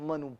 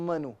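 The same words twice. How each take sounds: No difference in how they are said.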